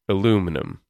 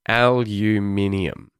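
First: The word has four syllables. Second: The word has five syllables. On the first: "Americans pronounce it as aluminum" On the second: "I would pronounce it as aluminium"

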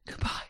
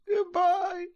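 First: It is said in a breathy voice. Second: It is said in a plain voice.

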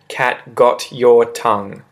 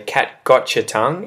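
First: Got and your are said as separate words. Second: Got your blends into a ch sound. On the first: "instead of" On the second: "it often becomes a gotcha"

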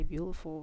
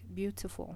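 First: The T in the middle is dropped. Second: The T in the middle is clearly pronounced. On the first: This copies how the local people say it. "they don't say the T" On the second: This is how the speaker used to say it. "I used to say like beautiful"

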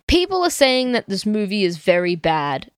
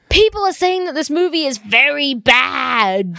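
First: It is read at a calm, normal volume. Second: It is yelled loudly with high energy.

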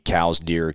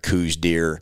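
First: The first word rhymes with cows. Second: The first word rhymes with goose. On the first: It follows how the namesake's surname is said. "some people say cows deer" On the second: It is how serious hunters say it. "anybody that is hunting them seriously calls them coos deer"

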